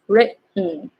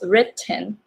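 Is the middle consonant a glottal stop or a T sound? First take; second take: glottal stop; T sound. First: The middle consonant is a glottal stop. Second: The middle consonant is a T sound. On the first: "you can also pronounce it as written ... it's glottal" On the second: "you can pronounce it as written"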